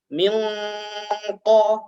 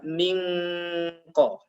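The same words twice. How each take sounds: First: The nasal sound is heavy and full. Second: The nasal sound is light and thin. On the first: The speaker calls it right. "Semua huruf isti'la maka harus dibaca tebal" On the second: The speaker calls it wrong.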